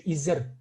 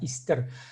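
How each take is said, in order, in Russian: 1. Средний звук — один z. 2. Средние звуки — s, затем t. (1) "сагайцы говорят еще изер" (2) "в хакасском языке так говорят"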